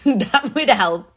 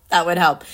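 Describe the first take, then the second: First: Laughing aside. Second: Said in the usual way. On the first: Real, not acted.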